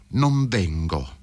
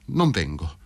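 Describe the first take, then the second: First: Slow refusal. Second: Said in the usual way. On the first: A narrator's reading. Wife refuses again, slowly.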